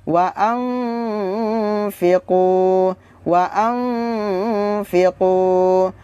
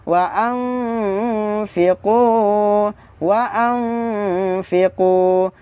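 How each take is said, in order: Both takes have the same delivery.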